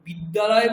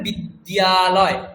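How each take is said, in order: First: The d sound is doubled with no glide. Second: A single d is followed by a y glide. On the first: The speaker calls it wrong. "বিদ্যালয় বললে তখন তো দুটো লকার, দুটো দকার শোনা যাচ্ছে" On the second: The speaker calls it right. "বলতে হবে বিদ্যালয়"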